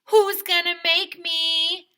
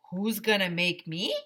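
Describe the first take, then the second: First: High, loud and slow taunt; loud slow dare, pitched way up; defiant dare. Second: Said in the usual way. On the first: Shown as a demonstration. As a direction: challenge them like a movie tough guy. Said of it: "you should always say". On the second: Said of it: "I asked".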